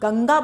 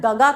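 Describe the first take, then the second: First: The first syllable is nasal before the g. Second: The first syllable has no nasal sound. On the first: The speaker calls it right. "तो आप गंगा बोलते हैं ना" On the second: The speaker calls it wrong. "गगा तो नहीं बोलते हैं ना आप"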